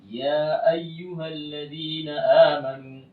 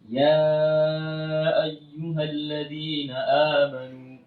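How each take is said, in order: First: The long vowel is held for only two counts. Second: The long vowel is held for four counts. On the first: The speaker calls it wrong. "tapi kita baca dua harakat saja" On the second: The speaker calls it right. "harusnya dipanjangkan empat harakat"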